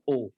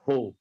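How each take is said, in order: First: It starts directly with the vowel, no breath. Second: It starts with an audible breathy h sound. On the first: The speaker calls it wrong. "bukan o" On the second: The speaker calls it right. "ada nafasnya ho"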